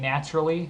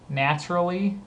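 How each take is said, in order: First: The word is said quickly and informally. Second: The word is said carefully at normal speed.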